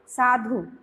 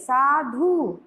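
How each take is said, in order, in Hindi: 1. अंतिम स्वर छोटा और जल्दी बोला जाता है। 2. अंतिम स्वर लंबा खींचा जाता है। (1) "जल्दी बोलते हैं" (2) "खींचते नहीं है, साधु इस तरह से नहीं बोलते हैं।"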